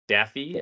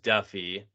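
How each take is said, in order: First: The name sounds like the cartoon duck's. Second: The name does not sound like the duck's. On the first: The speaker calls it right. "it is Daffy, as in the duck" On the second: The speaker calls it wrong. "I said it was Duffy"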